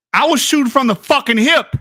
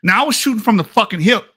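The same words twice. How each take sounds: First: Triumphant repeat. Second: Said in the usual way. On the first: Real, not acted. Repeats the boast louder.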